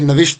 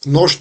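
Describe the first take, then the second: First: The word has two syllables, na-visht. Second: The word has one syllable, nosht. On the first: The speaker calls it right. "तो ये नविश्त है" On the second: The speaker calls it wrong. "नोश्त नहीं है"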